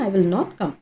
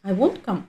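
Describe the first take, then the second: First: Will and not are said as separate words. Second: Will and not are joined into won't.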